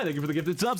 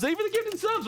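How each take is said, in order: First: Said in the usual way. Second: Very high excited squeal; squeaky high thanks. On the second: Real, not acted. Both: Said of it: "What the heck?".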